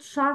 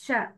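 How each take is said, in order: First: Sha with a dark back vowel, "shah"; heavy shin. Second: Sha with a thin front vowel; light shin. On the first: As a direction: say sha heavily, as the mistake. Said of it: "Not sha". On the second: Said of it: "It's sha". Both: Shown as a demonstration.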